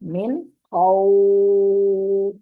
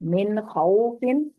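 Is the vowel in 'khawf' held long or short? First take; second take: long; short. First: The word stops and the vowel is drawn out. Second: The word continues and the vowel stays short.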